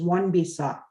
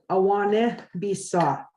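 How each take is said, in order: First: Some vowels in the first word are left silent. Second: Every written vowel in the first word is sounded. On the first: This is how speakers actually say it. The speaker calls it right. "the way we would pronounce it is" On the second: This is how the spelling reads. The speaker calls it wrong. "The way it reads is"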